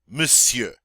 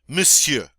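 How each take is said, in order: Both takes have the same delivery.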